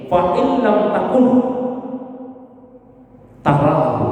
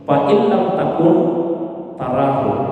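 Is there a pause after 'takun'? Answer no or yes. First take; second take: yes; no. First: It has a break right after takun. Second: It is said as one phrase without a break. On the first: When you cease to exist, you will see Him. "Kalau cara baca kedua tidak begitu. Cara membacanya seperti ini" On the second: If you do not see Him, He sees you. "Kalau tadi yang pertama cara bacanya begini"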